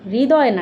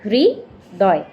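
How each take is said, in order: First: The r sound after the first consonant is missing. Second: The r sound after the first consonant is heard. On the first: The speaker calls it wrong. "হৃদয় না কিন্তু" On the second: The speaker calls it right. "হয়ের নিচে র ফালাটা আমাদের পড়তে হবে"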